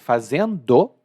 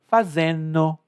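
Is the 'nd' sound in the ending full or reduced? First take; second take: full; reduced. First: The ending is said fully with a clear d. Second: The ending is reduced, dropping the d sound. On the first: "muitos dos gerúndios que eu pronuncio lentamente" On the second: "quando a gente fala relaxado, a gente muda"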